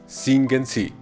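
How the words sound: It is said with a firm commanding intonation. It tells the person to sing. "si es la orden cante"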